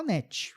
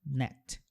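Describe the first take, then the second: First: "net" said as ne-tchi with an added vowel; Brazilian net. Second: "Net" clipped short, no vowel after the t; English net. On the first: Teacher shows how everyone says the brand name. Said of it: "todo mundo fala net". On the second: Teacher shows how nobody says the brand name. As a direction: say "Net" ending sharp on t. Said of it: "Ninguém fala essa palavra como net". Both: Shown as a demonstration.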